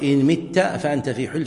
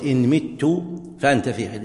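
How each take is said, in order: First: "مت" said as mitta, you die; مت بفتح التاء (متَّ); fatha on the ta. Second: "مت" said as mittu, I die; مت بضم التاء (متُّ); damma on the ta. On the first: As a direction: end "مت" on a clear a: mitta. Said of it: "فإن كان بفتح التاء". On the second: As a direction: end "مت" on a clear u: mittu. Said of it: "إذا كان بفتح التاء". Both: Shown as a demonstration.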